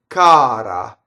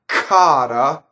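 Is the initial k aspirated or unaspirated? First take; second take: unaspirated; aspirated. First: The k is sharp with no puff of air. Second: The k is released with a puff of air. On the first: The speaker calls it right. "It's very sharp" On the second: The speaker calls it wrong. "not cara, as in English with the puff of air"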